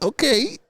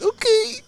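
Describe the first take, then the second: First: Much higher, mock-innocent okay; high sing-song okay. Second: Very high, crying squeak of okay; mock crying okay; squealed okay. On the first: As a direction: sweetly pretend to obey. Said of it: "I'd be like". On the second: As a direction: break into a squealing wail. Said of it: "it'd be like".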